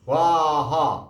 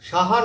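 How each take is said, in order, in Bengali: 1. s এর পরে একটি w ধ্বনি আছে। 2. s এর পরে w ছাড়া উচ্চারণ করা হয়। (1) "এর উচ্চারণও সঠিকভাবে করতে হবে" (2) "সাহা না"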